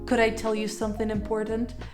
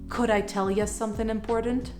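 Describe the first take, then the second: First: 'You' is said fully. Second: 'You' is reduced to 'ja'. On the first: "instead of saying" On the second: "you could say ja"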